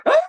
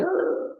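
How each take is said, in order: First: Sudden loud mock wail; louder mock crying. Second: High, softer mock wail; mock group crying. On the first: Devotee crying louder than everybody at the funeral, loud mock wail. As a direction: outdo the mourners with a bigger wail. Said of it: "cry more louder than everybody else". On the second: Everybody crying at the funeral, mock wail. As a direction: wail like one of the mourners. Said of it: "Everybody going".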